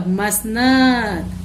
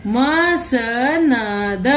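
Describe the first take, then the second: First: Said in the usual way. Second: मसनद split into म-स-नद very slowly; मसनद with each syllable stretched; slow syllable reading. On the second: Shown as a demonstration. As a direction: spell out मसनद for the class, very slowly. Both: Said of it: "तो चलिए, इनको पढ़ते हैं।".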